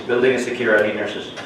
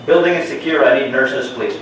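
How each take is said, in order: First: Said in the usual way. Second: Loud urgent call across the ward; man down shout. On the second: Acted. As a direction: shout it out to the whole floor. Shooter drill, calling out to staff.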